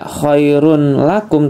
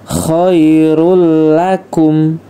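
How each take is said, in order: First: An n sound is kept before the l. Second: The n sound is dropped and merged into l. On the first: The speaker calls it wrong. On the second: The speaker calls it right.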